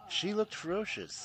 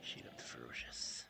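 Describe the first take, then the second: First: Higher and louder, punching "looked" in "She looked ferocious". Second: Soft whispered "She looked ferocious"; low whispered "ferocious" as if afraid to be heard. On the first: Repeated aloud after whispered take. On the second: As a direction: breathe "She looked ferocious" as a hushed secret. Whispered take before loud take. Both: Acted.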